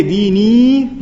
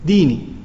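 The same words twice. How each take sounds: First: DINI with a long, drawn-out final ee; long final vowel. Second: DINI cut short, lower, with a brief final i; short, emphatic ending. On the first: Teacher showing students what you don't say, long drawn-out "dini". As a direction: stretch the end of "dini" out slowly. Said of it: "then you don't say". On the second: Teacher showing how an exclamation is said, short emphatic "dini". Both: Shown as a demonstration.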